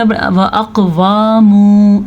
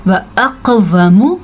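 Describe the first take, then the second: First: व अक़वामु as "aqwaa-moo", both vowels stretched; व अक़वामु with overlong w and m syllables; wrong long vowels. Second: व अक़वमु with brief wa and mu, bounced q; व अक़वमु, jolted q, unstretched vowels; short vowels. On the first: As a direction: drag out the waa and moo of व अक़वामु. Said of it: "ऐसे पढ़ते हैं". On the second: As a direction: echo the q in व अक़वमु, keep endings short. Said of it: "आपने नहीं करना". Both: Shown as a demonstration.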